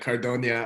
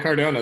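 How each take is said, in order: First: The n is a palatal ny sound. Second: The n is a plain n sound. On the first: The speaker calls it wrong. "you did like a tilde thing" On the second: The speaker calls it right. "that's it"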